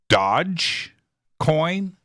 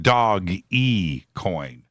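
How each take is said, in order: First: The first part sounds like one syllable, 'dodge'. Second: The first part sounds like two syllables, 'doggy'. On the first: The speaker calls it wrong. "is it Dodge coin" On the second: The speaker calls it right. "I think it's Dog E coin"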